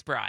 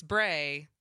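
First: "Bry" rhyming with "sky"; correct surname pronunciation. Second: "Bray" rhyming with "day"; mistaken surname pronunciation. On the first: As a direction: say "Bry" with a long i. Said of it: "because it's Bry". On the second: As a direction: say "Bray" with a long a. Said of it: "thinks it's Bray". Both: Shown as a demonstration.

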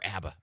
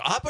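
First: "abba" with a flat "a" as in cat; "abba" opening on the vowel of "apple"; short-A pronunciation. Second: "abba" with an open "ah" first vowel; "abba" opening on a broad ah; open-vowel pronunciation. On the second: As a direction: say "abba" as AH-buh. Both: Shown as a demonstration. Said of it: "Is it abba or abba?".

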